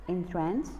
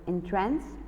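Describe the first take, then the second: First: The stress is on the second syllable. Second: The stress is on the second syllable.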